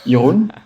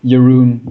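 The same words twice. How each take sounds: First: The name is said in a German way. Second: The name is said in an English way. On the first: "if you're familiar with German, this is how you pronounce it" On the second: "if you're only familiar with English, um, your Jeroen is fine"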